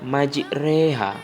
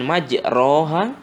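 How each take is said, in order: First: The vowel after the r is an e. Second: The vowel after the r is a clear a. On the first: The speaker calls it right. "tapi dibacanya majreha ... tapi menjadi E, antara fathah dengan kasroh" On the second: The speaker calls it wrong. "bukan majroha, ... bukan A"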